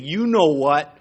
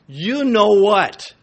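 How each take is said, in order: First: Said in the usual way. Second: Drawn out and louder, leaning on know; slow, pointed you know what; knowing emphasis on know; emphatic slow repeat. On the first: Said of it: "repeated for emphasis". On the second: Shown as a demonstration. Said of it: "repeated louder, slower".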